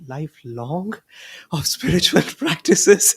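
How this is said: It is said in a daunted, overwhelmed tone. A lifetime of practice feels too hard. "Where do I go from lifelong? I mean, I can barely get by tomorrow"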